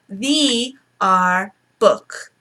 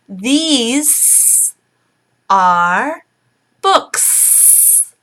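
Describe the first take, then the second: First: The S sounds are left off both words. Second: The S sounds are said strongly and clearly. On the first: The speaker calls it wrong. "So they say" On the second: The speaker calls it right. "So I will emphasize"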